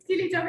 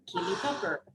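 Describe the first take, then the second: First: It is said in a plain accent. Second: It is said with a French accent.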